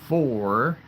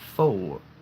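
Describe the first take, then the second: First: The final R sound is clearly pronounced. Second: The final R sound is dropped. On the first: "with the R at the end" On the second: "they say four, four. You can almost hear the R, but it's more like faux"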